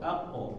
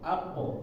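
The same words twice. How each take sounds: The two takes are said the same way.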